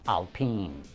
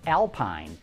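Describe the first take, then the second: First: It is said unlike the English word alpine. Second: It is said like the English word alpine. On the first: The speaker calls it right. "the proper pronunciation is Alpine" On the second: The speaker calls it wrong. "looks like it should be pronounced Alpine"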